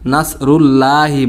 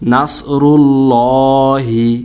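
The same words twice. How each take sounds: First: The l sound is light and thin. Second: The l sound is heavy and full. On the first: The speaker calls it wrong. "এখানে মস্ত বড় একটা আমরা ভুল করে থাকি।" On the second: The speaker calls it right. "আল্লাহ শব্দকে মোটা করে পড়তে হবে"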